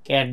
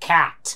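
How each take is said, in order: First: The first consonant is unaspirated. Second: The first consonant is aspirated. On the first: The speaker calls it wrong. "আমরা বাংলাদেশের কি বলি? ক্যাট বলি" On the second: The speaker calls it right. "But they pronounce it"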